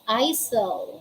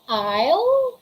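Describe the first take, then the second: First: The s sound is pronounced. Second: The s sound is left out. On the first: The speaker calls it wrong. "We don't say isle" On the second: The speaker calls it right. "We say aisle"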